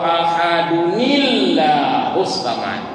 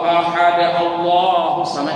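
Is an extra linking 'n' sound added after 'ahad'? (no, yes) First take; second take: yes; no. First: A linking 'nil' sound joins the two words. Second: The words run on with no added linking sound. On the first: The speaker calls it right. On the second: The speaker calls it wrong.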